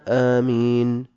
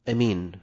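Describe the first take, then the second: First: The first vowel is long and the m is single. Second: The first vowel is short and the m is single. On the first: "بالمد والتخفيف" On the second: "بالقصر والتخفيف"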